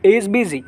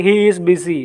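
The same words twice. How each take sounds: First: "He is busy" contracted, with "He is" as one syllable; reduced native-speaker "He is busy"; native contraction. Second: Said in the usual way. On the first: Shown as a demonstration. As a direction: run "He is" together into a single short syllable. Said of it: "but they will speak". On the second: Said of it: "we will say".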